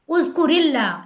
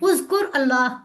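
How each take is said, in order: First: An 'i' vowel joins the two words together. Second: The two words are said without a linking vowel. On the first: "जेर लगाओ" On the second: "उज़कुर एक शख्स को कहना है और उसके साथ अल्लाह लगाना है"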